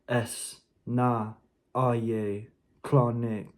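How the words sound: It is spoken rhythmically in a neutral tone. "in a rhythmic and neutral tone"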